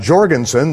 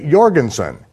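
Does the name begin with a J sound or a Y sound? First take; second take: J sound; Y sound. First: The name begins with a J sound. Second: The name begins with a Y sound. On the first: The speaker calls it wrong. "they don't say Jorgensen" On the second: The speaker calls it right. "they say Jorgensen"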